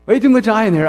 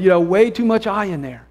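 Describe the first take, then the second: First: Quick, louder laughing repeat; amused, rushed repeat. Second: Said in the usual way. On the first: Real, not acted. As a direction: toss the line off through a laugh. Laughing repeat of the friend's line.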